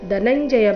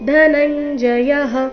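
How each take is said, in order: First: The first consonant is plain, without aspiration. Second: The first consonant is breathy, with aspiration. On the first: The speaker calls it wrong. "ದ ಬೇಡ, ಧನಂಜಯ ಬೇಡ" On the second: The speaker calls it right. "ಧ ಮಹಾಪ್ರಾಣ ರಸ್ವ ಬರಬೇಕು"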